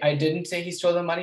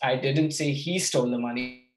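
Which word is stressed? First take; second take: didn't; he. First: The word didn't is stressed. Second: The word he is stressed.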